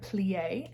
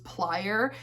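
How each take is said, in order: First: The word is said like the French ballet term. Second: The word is said as a plain English word. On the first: The speaker calls it right. "I think it's pronounced like plie. I think it's like ballet" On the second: The speaker calls it wrong. "I fully thought that this was plier"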